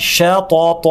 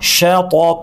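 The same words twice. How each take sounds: The two takes are said the same way.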